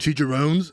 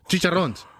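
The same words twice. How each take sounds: First: The word is said with an American accent. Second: The word is said with a Spanish accent. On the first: Others expect the word to be said this way. The speaker calls it wrong. "don't you mean chicharrones?" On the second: This is the word's original Spanish form. The speaker calls it right. "when I'll be like"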